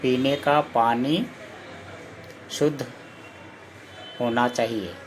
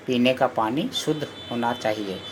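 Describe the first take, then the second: First: Word by word with long pauses, slowed right down; slow dictation. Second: Said in the usual way. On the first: Shown as a demonstration. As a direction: dictate it slowly so pupils can write. (धीरे-धीरे, रुक-रुक कर बोलना) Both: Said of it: "जैसे कि".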